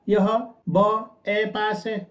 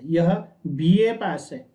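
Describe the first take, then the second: First: B is said as a bare 'b' sound. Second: B is said as its name 'bee'. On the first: The speaker calls it wrong. "मैं ये तो नहीं बोलूंगा ना" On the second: The speaker calls it right. "मैं क्या बोलूंगा"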